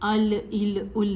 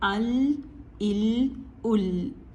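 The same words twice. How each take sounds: First: The L ends with an echoing bounce. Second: The L ends smoothly without a bounce. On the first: The speaker calls it wrong. "अल इल उल नहीं कहते, ये ये इसकी गलत अदायगी है" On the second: The speaker calls it right. "ठीक है"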